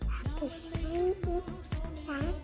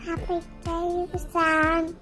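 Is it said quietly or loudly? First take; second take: quietly; loudly. First: It is said quietly. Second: It is said loudly.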